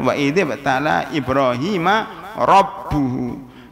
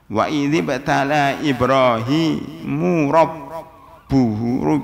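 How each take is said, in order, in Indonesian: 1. Nama Ibrahim diakhiri dengan vokal 'a'. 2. Nama Ibrahim diakhiri dengan vokal 'u'. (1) "Yang benar"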